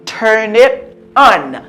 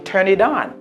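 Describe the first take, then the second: First: The words are said separately without linking. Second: The words are linked smoothly into one another.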